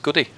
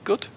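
First: The name ends with an added 'ee' sound. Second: The name ends without any added vowel sound. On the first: The speaker calls it wrong. "his name I pronounced Goody" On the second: The speaker calls it right. "it's actually Good"

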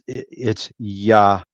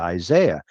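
First: The name begins with a 'yah' sound. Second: The name begins with an 'eye' sound. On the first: The speaker calls it right. "Yahziah is the true Hebrew pronunciation" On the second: The speaker calls it wrong. "we kind of error a little bit using our English vernacular"

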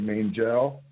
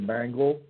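First: The 'angel' part is clearly pronounced. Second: The 'angel' part is reduced, not clearly pronounced.

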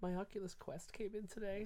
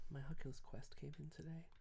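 First: The sentence is said at a louder volume. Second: The sentence is said at a quieter volume.

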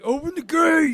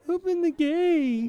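First: The voice is rough and raspy. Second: The voice is smoother, without rasp. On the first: An imitation of Rick's voice. "the in his voice, and he's like" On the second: An imitation of Glenn's voice. "Glenn would be more like"

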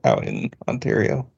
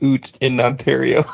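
First: Out is said with an American 'ow' vowel. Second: Out is said with a Canadian 'oo' vowel.

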